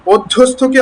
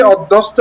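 First: "অধ্যস্থকে" with a puffed th; breathed th in "অধ্যস্থকে"; aspirated th. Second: "অধ্যস্ত" ending in st with no puff; de-aspirated "অধ্যস্ত"; wrong unaspirated t. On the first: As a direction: model "অধ্যস্থকে", aspirating the th after s. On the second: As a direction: show the slip, plain t in "অধ্যস্ত". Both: Shown as a demonstration. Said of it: "অধ্যস্ত বলা যাবে না".

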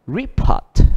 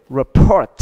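First: "report" stressed on RE, pitched high; noun stress, first syllable. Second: "Report" stressed on PORT; verb stress, second syllable. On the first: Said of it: "danh từ nhấn âm đầu". ("report" nhấn cao vào âm đầu RE) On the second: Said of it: "phát âm khác biệt". ("Report" nhấn mạnh âm hai PORT) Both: Shown as a demonstration.

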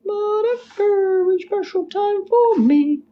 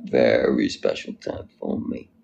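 First: Very high, slow play-acting voice; high put-on voice. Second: Slow, low delivery after a chuckle; low put-on voice. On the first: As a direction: draw it out way up high. Repeats catchphrase in put-on high voice. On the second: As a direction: drop it low and draw it out. Repeats catchphrase low, laughing.

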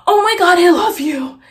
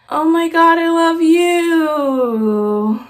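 First: Louder, gushing excitement; excited fan. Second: Very slow, dragged-out, bored echo; mock his lazy, uninterested reply; flat imitation. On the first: Retold or imitated. Thirteen-year-old fan meeting her idol, gushing. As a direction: gush it out like a starstruck fan. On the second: Shane answering his fan, mock bored and slow. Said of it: "he said it just like that".

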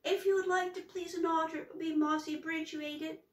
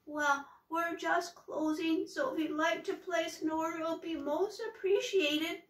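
First: High, fast, tumbling flustered words; panicked garbled troll voice; flustered jumble. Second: Frightened little troll voice; trembly wobbly voice. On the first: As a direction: rush it out in a panic. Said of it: "it came out all upside down". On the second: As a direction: stammer it out scared of the witch. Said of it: "In a trembly, wobbly voice". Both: Acted.

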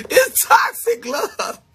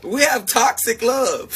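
First: Words squeezed out through high laughter, slow; laughing. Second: Said in the usual way. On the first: Real, not acted. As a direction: laugh it out, almost crying with laughter. Laughing over toxic love.

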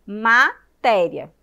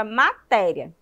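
First: "Matéria" slow and loud, split into ma, té-ria; syllable by syllable. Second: Said in the usual way. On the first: Shown as a demonstration. Teacher counting syllables with children, loud and split. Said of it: "Vamos contar aí". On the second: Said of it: "falar a palavra matéria".

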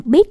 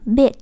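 First: "beat" with a short, quick i; wrongly short vowel. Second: "beat" with the ee drawn out; long vowel. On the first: Teacher naming a wrong reading, short-vowel "beat". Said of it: "là nó cũng sai". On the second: Teacher giving the correct reading, long-vowel "beat". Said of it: "Nếu các em không kéo dài". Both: Shown as a demonstration.

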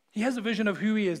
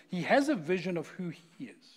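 First: Faster and louder, leaning on has; repeated for emphasis. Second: Said in the usual way. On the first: Shown as a demonstration. Pastor repeating a line to the congregation, stressing has. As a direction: drive the point home on has.

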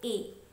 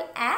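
First: "ए" as long a, like the letter's name; "ए" pronounced ay, the long vowel. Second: "ए" as short a, like the vowel in bat; "ए" pronounced as the short phonic vowel æ. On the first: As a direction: say "ए" as a closed, held ay. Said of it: "ये long vowel". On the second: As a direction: say "ए" with an open short æ sound. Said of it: "ये short vowel". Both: Shown as a demonstration.

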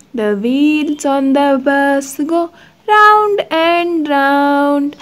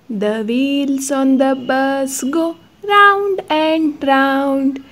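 Both takes have the same delivery.

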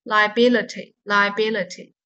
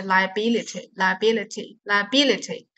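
First: "liability" with weak "uh" before the final "tee"; current pronunciation. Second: "liability" with "ih" before the final "tee"; old pronunciation. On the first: Teacher gives the updated reading, weak-vowel pronunciation. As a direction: say "liability" as lie-uh-BIL-uh-tee. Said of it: "所以这个单词应该读". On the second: Teacher recalls how it was learnt before, old-style pronunciation. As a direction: say "liability" as lie-uh-BIL-ih-tee. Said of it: "我们以前学的时候是". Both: Shown as a demonstration.

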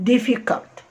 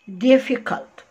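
No difference in how they are said.

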